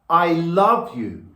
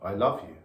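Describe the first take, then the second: First: It is said with more intensity. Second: It is said flat, with no build.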